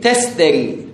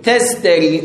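First: The middle cluster is a voiceless st. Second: The middle cluster is a voiceless st.

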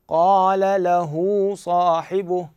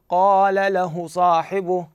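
First: The vowel after the 'h' is lengthened. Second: The vowel after the 'h' is kept short. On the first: The speaker calls it right. "هذه الضمة اللي موجودة على الهاء نطيلها بحيث يتولد من عندها حرف واو" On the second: The speaker calls it wrong. "ما أقول ... يعني فقط ضمة وأنتقل، لا"

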